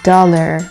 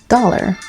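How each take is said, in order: First: It is said in a plain normal voice. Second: It is said in a silly put-on voice.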